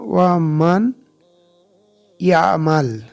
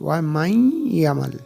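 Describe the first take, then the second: First: The n sound is clearly pronounced before y. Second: The n merges into a doubled y sound. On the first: The speaker calls it wrong. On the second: The speaker calls it right.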